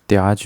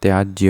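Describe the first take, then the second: First: त्याज said as "tyaaj"; no y after j in त्याज; wrong bare j ending. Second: त्याज्य said as "tyaajjya"; "tyaaj-jya" for त्याज्य; correct jya ending. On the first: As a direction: stop त्याज on the j. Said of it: "भी नहीं होता". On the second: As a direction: sound j plus y at the end of त्याज्य. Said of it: "होता है". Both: Shown as a demonstration.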